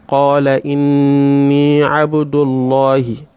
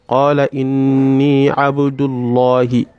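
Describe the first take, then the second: No difference in how they are said.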